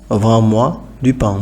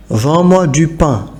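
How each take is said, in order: First: Said in the usual way. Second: Vends-moi alto y lento; emphasised example. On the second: Shown as a demonstration. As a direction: recalca Vends-moi, despacio. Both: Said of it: "Par exemple".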